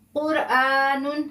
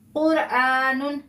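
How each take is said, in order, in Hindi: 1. शब्द पूरे -un की आवाज़ के साथ खत्म होता है। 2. शब्द पूरे -un की आवाज़ के साथ खत्म होता है।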